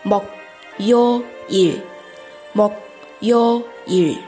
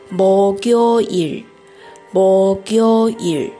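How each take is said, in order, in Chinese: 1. 每个音节分开读，不连读。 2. 音节顺畅地连成一个词来读。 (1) "首先是一个一个字来读" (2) "又是一个连读，最后的正确读法应该是목요일"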